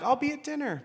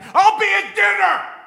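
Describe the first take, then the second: First: It is said calmly, at normal volume. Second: It is said loudly, like shouting.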